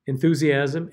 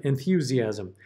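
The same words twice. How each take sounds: First: Enthusiasm as en-thoo-ziasm, plain oo; enthusiasm without ya. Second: Enthusiasm as en-thyoo-ziasm, y glide. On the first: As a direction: Enthusiasm with no y glide. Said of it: "you hear the difference". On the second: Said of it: "you might want to add the ya". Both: Shown as a demonstration.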